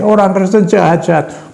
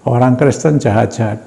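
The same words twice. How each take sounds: First: High mock yell, dragged out; retold shout. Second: Said in the usual way. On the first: Husband shouting so the whole ward hears, high mock yell. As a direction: hurl it like an angry husband. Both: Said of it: "Keras sekali".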